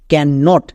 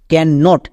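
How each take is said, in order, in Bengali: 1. এটা দুটি আলাদা পূর্ণ শব্দ হিসেবে বলা হয়। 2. এটা দুটি আলাদা পূর্ণ শব্দ হিসেবে বলা হয়।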